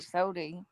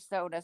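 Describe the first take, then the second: First: The word ends with an 'ee' vowel. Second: The word ends with an 'uh' vowel. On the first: "but it's normally sody" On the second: "I do say soda sometimes"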